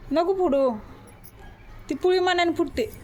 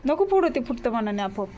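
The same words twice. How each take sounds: First: Mother snapping at her daughter to stop, firmly raised; firm scolding. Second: Said in the usual way. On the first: Real, not acted. Mother telling daughter not to pop the pimple, sharp and louder.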